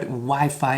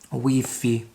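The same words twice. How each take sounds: First: It is said with English vowel sounds. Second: It is said with Spanish vowel sounds.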